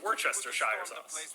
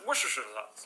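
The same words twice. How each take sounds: First: It is said slowly with each syllable clear. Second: It is said quickly and mumbled together. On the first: The speaker now knows how to pronounce it. The speaker calls it right. "but now I'm just gonna be like, oh, it's" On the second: The speaker is unsure how to pronounce it. The speaker calls it wrong. "I just always kind of just mumble my way through it or just say it really fast"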